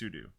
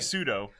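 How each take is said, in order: First: It is pronounced like the word sudo. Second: It is pronounced like the word pseudo. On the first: This matches what the name actually stands for. "but it's sudo" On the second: This is the common, easier way people say it. "Like I say pseudo"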